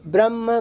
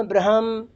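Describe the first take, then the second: First: "ब्रह्म" as bramm; म before ह. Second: "ब्रह्म" as bra-ham, ह audible; ह before म. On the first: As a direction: close straight onto म in "ब्रह्म". ("ब्रह्म" को ब्रम्म बोलें) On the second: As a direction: open the ह before the final म in "ब्रह्म". ("ब्रह्म" को ब्र-हम बोलें) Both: Shown as a demonstration. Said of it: "वो आगे पीछे होते".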